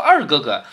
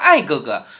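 First: The first syllable is pronounced 'er'. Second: The first syllable is pronounced 'ai'. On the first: This is the standard way to say it. "他没说二哥哥" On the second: This is how a southerner who mixes the sounds says it. "他说爱哥哥"

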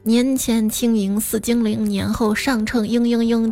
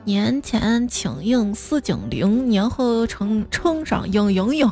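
First: It is said in standard Mandarin. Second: It is said in Xi'an dialect.

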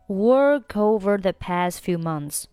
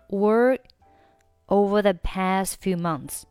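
First: The final k of work runs into over. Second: The final k of work is not pronounced. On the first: "或者你可以选择work 和后面的over 进行一个连读啊" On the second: "这里的work 你可以选择末尾不发音。"

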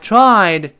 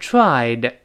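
First: The final d is not released. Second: The final d is fully released. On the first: "失去爆破了，读成I tried 那个的就没了" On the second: "本来应该是tried"

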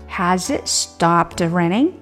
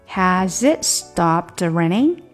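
The two takes are said the same way.

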